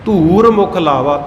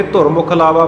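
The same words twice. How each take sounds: First: ਧੂਰ as a long, held "dhoor"; slow phrase with ਧੂਰ stretched; correct long vowel. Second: ਧੁਰ as a brief "dhor"; wrong short vowel. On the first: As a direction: draw out the oo in ਧੂਰ, slowly. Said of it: "ਧੂਰ ਨ-, ਮਤਲਬ ਧੂੜੀ". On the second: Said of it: "ਪਾਠ ਨਹੀਂ ਹੈ". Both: Shown as a demonstration.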